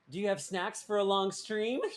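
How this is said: It sounds light, cheerful and playful. The question is friendly and joking. "the smiley laughy face lets me know to read it as in like"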